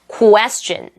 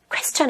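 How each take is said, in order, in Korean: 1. 둥근 'koo-a' 소리로 시작해요. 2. 평평한 'kwe' 소리로 시작해요. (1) "쿠아 발음으로 해주셔야 돼요" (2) "question 아니고"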